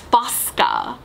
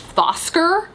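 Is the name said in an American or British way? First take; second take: American; British. First: The name is said in an American way. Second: The name is said in a British way. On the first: The speaker calls it right. "It's Fosca, which is just an Americanism" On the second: The speaker calls it wrong. "pronunciation was so British that I thought his name was Fosker"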